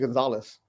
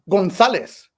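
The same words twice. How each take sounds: First: The name is pronounced the English way. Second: The name is pronounced the Spanish way.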